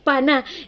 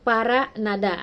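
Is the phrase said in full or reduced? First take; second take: reduced; full. First: Syllables are dropped, leaving a short two-syllable form. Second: Every syllable of the phrase is fully pronounced. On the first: This is how Latin Americans and Andalusians say it. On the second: This is the formal language learners study.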